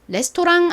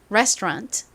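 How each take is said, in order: First: It is said as a Korean loanword. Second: It is said with English pronunciation. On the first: The speaker calls it wrong. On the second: The speaker calls it right.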